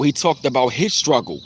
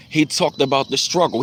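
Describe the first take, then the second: First: "his" picked out against the rest; stress on HIS. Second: Said in the usual way. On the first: Real, not acted. Fan narrowing it to the rapper's own, stress on "his". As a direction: lean on the word "his" to make it personal.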